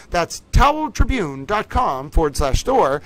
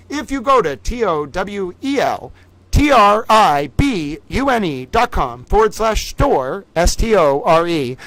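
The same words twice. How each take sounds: First: Said in the usual way. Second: Slow, louder letter-by-letter spelling; spelled out slowly. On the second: Shown as a demonstration. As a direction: spell every letter for the viewers.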